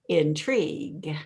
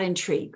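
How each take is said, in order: First: The word is stretched out and drawn long. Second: The word is said short and clipped. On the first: The speaker calls it right. "elongate it instead of bury it" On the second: The speaker calls it wrong. "not intrigue"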